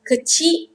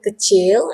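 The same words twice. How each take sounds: First: "kecil" clipped to kechi, final l dropped; informal pronunciation. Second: "kecil" as kechel, final l sounded; full pronunciation. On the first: Teacher shows how the word is spoken, informal "kecil" without l. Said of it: "we say kecil-kecil je". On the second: Teacher gives the source word, "kecil" pronounced kechel. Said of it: "the proper word is kecil". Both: Shown as a demonstration.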